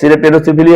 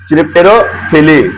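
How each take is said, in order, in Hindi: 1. यह शब्द 's' ध्वनि से शुरू होता है। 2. यह शब्द 'ch' ध्वनि से शुरू होता है। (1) "सिरिप्टेरोफिली है" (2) "नहीं चिरिप्टेरोफिली हो जाएगा ना"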